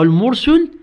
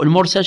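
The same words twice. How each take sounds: First: المرسل asked with damma, al-mursul, rising. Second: المرسل with a clear fatha: al-mursal. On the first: Teacher to students, floating the wrong al-mursul reading. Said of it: "خو بالضمة حتمًا ما تصير". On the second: Teacher to students, testing al-mursal reading of المرسل. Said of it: "بالفتح يعني لو بالكسر". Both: Shown as a demonstration.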